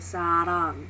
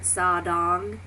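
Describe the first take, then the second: First: The middle consonant sounds like an L. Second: The middle consonant sounds like a D. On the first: The speaker calls it right. "pronouncing it as an as an L" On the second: The speaker calls it wrong. "like a D sound, because I've always heard sadong"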